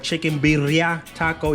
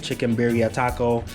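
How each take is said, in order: First: The double R in birria is rolled. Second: The R in birria is a plain English R. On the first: "You gotta roll your tongue with it. Double R's" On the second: "the English way"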